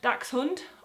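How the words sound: The word is said with a German pronunciation. "it is pronounced Dachshund"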